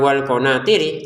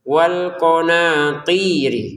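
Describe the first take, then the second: First: The ti syllable is cut short. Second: The ti syllable is held long. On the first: The speaker calls it wrong. "Jangan ... karena di sini ada panjang" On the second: The speaker calls it right. "ti juga sama"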